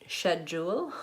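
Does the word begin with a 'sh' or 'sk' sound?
sh. The word begins with a 'sh' sound. "They would say schedule"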